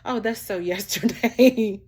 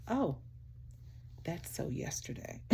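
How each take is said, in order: First: Louder, slow and laughing, hammed-up Californian dismissal; loud mocking brush-off; mock California friend. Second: Hushed, breathy brush-off of a Californian friend; barely voiced mock dismissal; mock California friend. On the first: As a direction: play up the trendy friend, laughing as you say it. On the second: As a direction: toss it off like a trend-chasing friend, under your breath. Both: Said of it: "So I love about my friends in California".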